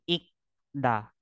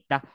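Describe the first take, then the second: First: The second syllable starts with a soft d sound. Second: The second syllable starts with a hard t sound. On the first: The speaker calls it wrong. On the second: The speaker calls it right. "ang da is ta"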